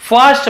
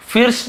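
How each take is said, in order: First: "फर्स्ट" with "uh" after the f; correct "uh" vowel. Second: "फिर्स" with "ih" as the vowel; short I misreading. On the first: Teacher giving the correct reading, "फर्स्ट" with "uh". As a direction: say first as "फर्स्ट", furst. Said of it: "हम इसे फर्स्ट पढ़ रहे हैं". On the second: Teacher rejecting a reading of first, "फिर्स" with "ih". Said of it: "इसे फिर्स नहीं पढ़ रहे हैं". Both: Shown as a demonstration.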